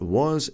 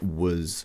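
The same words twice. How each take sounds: First: The word has a full, strong vowel. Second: The word has a weak, reduced vowel. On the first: "So it's not was" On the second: "the weak pronunciation of was is used"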